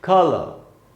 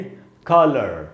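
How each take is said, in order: First: The final r is not pronounced. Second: The final r is pronounced. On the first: "British English में" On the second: "ये जो एंड में आर है ये American में पढ़ा जाएगा"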